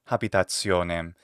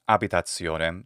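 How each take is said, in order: First: The word begins with an audible h sound. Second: The word begins directly with a vowel. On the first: The speaker calls it wrong. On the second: The speaker calls it right.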